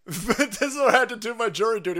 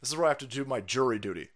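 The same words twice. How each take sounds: First: Laughing through the line, a bit louder. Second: Said in the usual way. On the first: Real, not acted. Mocking Oakland courts, laughing at his own jury duty. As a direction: crack up while repeating it.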